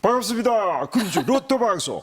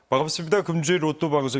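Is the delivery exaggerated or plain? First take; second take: exaggerated; plain. First: It is said in an exaggerated, mocking manner. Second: It is said in a plain, normal manner. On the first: It teases the person to get laughs. "제가 ... 이렇게 하기 때문에" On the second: This is how the person actually speaks. "서경석 씨는 사실 ... 이렇게 하지만"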